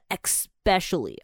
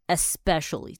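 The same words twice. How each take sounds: First: The word begins with an 'ex' sound. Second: The word begins with an 'es' sound. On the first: The speaker calls it wrong. "很多人会念成especially" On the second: The speaker calls it right. "这是正常的念法"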